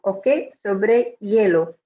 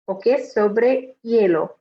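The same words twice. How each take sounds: Both takes have the same delivery.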